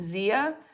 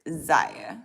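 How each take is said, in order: First: The first vowel is an 'ee' sound. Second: The first vowel is not an 'ee' sound.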